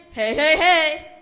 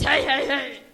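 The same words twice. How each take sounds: First: Booming jolly hey hey hey; mock Santa laugh. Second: Loud jolly "hey, hey, hey"; mock Santa laugh. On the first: Bear booming Santa's greeting, jolly and loud. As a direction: belt it out like Santa. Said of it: "what does he say again". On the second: Bear insisting Santa says hey, loud and jolly. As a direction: insist on it, boldly. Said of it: "No, I think it's".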